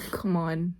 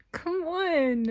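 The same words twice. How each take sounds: First: Said in the usual way. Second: 1 exasperated. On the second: Real, not acted.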